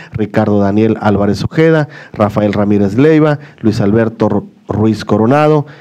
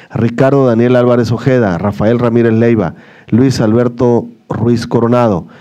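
The two takes are said the same way.

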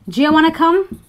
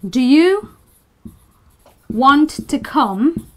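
First: The words are run together into one reduced chunk. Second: Each word is said separately and clearly. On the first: "But a native English speaker would say" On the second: "So you have a sentence like"

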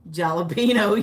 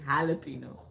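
First: The j is said like an English j. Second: The j is said like an h. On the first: The speaker calls it wrong. "You don't say J's like jalapeno" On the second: The speaker calls it right. "you say jalapeno"

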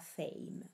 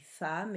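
First: The vowel is an 'e' sound. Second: The vowel is an open 'a' sound. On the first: The speaker calls it wrong. "et non pas fame" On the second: The speaker calls it right. "se dit femme"

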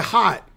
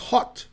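First: The vowel is open and unrounded, like 'haht'. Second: The vowel is short and rounded, like 'hawt'. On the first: This is how Americans say it. "You say hot" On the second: This is how British people say it. "it's hot. So obviously, when he learned English, he learned British English"

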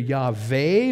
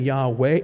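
First: The middle consonant is a V sound. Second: The middle consonant is a W sound. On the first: "that upside down L-looking symbol was pronounced as a V sound" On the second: "or it could have been Yahweh"

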